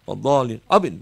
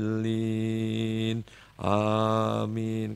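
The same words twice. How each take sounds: First: It is said quickly and hurriedly. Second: It is said slowly and gently.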